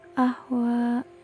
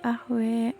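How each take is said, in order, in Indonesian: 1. Bunyi vokal akhirnya seperti 'a' biasa. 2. Bunyi vokal akhirnya seperti 'e'.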